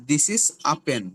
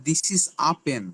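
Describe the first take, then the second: The two takes are said the same way.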